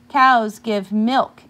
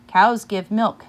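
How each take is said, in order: First: Slow, louder class chant of "Cows give milk"; sung, stretch "Cows give milk" out slowly like a class repeating together; sung, children echoing. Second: Said in the usual way. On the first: Acted. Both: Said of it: "echoed the children".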